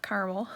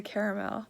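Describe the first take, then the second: First: CARAMEL as two-syllable CAR-mel; rejected pronunciation. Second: CARAMEL in three syllables, CARE-uh-mel; full CARE-uh-mel for CARAMEL; Canadian pronunciation. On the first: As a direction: drop the middle A of CARAMEL. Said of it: "not caramel". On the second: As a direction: sound the middle A in CARAMEL. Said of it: "There's another A in there". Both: Shown as a demonstration.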